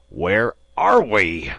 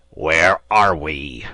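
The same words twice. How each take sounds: First: Slow, loud angry bellow; captain purple with rage; red-faced roar; furious repeat. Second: Slow, loud, seething whisper-shout; captain choking on his rage; furious slow rasp; angry demand. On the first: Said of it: "he repeated, with purple face". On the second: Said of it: "his anger permitted him to utter". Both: A narrator's reading.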